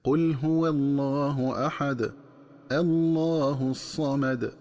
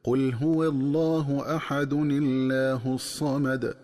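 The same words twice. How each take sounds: First: Slow chant stopping on "أحد", then a fresh "Allah" with heavy lam in "الله"; separated-verse recitation. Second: Slow chanted "أحد الله" run together as "ahadunillah"; joined-verse recitation. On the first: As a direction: pause after "أحد", open "الله" with an a and a thick L. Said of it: "تكون القراءة بتفخيم لفظ الجلالة". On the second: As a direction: link "أحد الله" with a kasra on the nun and a light lam. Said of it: "تكون القراءة هكذا". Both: Shown as a demonstration.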